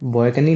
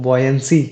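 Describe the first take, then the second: First: The word ends with a 'kni' sound. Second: The word ends with an 'nsi' sound. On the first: The speaker calls it wrong. "बॉयकनी नहीं" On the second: The speaker calls it right. "बॉयंसी क्या पढ़ेगा"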